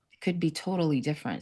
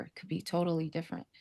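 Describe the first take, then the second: First: Said in the usual way. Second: Much softer, almost to herself; soft echo. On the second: Real, not acted. Echoing her own hope to the guest, softly. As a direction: let the repeat fall away quietly. Repeats her hopeful point twice.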